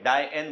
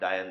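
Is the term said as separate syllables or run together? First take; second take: separate; run together. First: It is said as two separate syllables. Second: It is said as one run-together syllable. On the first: The speaker calls it right. "डाई एन बोलना चाहिए मुझे" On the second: The speaker calls it wrong. "डायन नहीं"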